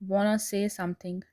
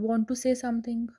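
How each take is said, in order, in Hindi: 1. Want to को छोटा करके wanna कहा जाता है। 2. Want to को दो पूरे शब्दों में कहा जाता है।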